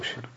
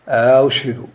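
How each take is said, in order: First: No long vowel separates the two glottal stops. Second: A long vowel separates the two glottal stops. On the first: "أو لا يدخله" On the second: "هل يدخله في كلمة أشهد"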